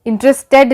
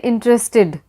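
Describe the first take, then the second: First: इंटरेस्टेड said with a hard, spelled-out Hindi ड at the end; wrong ed ending. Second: इंटरेस्टेड said with a light English -ed at the end; correct ed ending. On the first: Teacher showing the wrong, spelled-out ending on interested. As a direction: sound out every letter of the ending in इंटरेस्टेड. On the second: Teacher showing the right -ed ending on interested, said lightly. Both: Shown as a demonstration. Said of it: "इंटरेस्टेड नहीं बोलते".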